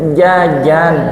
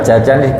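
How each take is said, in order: First: The j sound is made without flowing air. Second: Air flows out with the j sound. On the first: "diucapkan dengan ilmu tajwid menjadi" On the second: "jajan itu bahasa Jawa"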